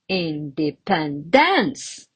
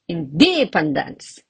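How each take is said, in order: First: The stress is on the fourth syllable. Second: The stress is on the second syllable. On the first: "And another wrong one" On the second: "Or I can even say"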